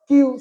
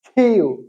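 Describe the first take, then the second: First: The k has no puff of air. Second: The k has a strong puff of air. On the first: The speaker calls it wrong. "সবসময় পড়ছি আমরা কিউ" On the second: The speaker calls it right. "শুদ্ধ উচ্চারণ হচ্ছে খিউ"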